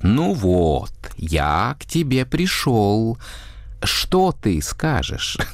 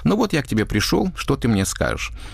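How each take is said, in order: First: It is exaggerated, with vowels stretched out. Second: It is spoken normally, vowels not stretched.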